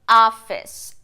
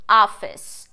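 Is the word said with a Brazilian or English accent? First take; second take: English; English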